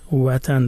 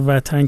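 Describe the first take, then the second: First: It begins with a rounded w sound, Dari style. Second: It begins with a v sound, Iranian style.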